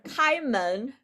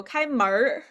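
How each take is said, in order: First: Said in the usual way. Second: 开门儿 with the last syllable curled into an R; Beijing-style R colouring on the end of 开门儿; Beijing erhua. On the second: Shown as a demonstration. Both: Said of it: "Beijing people".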